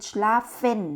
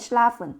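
First: The last syllable has a clear 'e' vowel. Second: The last syllable has a weak schwa vowel. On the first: This is the southern pronunciation. "ถ้าเป็นภาคใต้ก็จะเป็น, schlafen, นะคะเป็นสระเอนะคะ" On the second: This is the central, standard pronunciation. "ภาคกลางเยอรมันเราจะออกเสียงฝนนะคะเพราะว่า, an, ข้างหลังเป็นสระเอินนะคะ"

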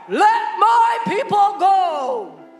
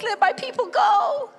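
First: The voice is strong and commanding. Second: The voice is whiny and pleading. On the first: The speaker is demanding with authority. The speaker calls it right. "that strong voice" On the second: The speaker is begging from weakness. The speaker calls it wrong. "he can't go with a whiny voice saying"

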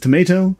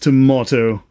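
First: It is said in an American accent. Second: It is said in a British accent. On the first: "an American says tomato" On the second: "a Brit says tomato"

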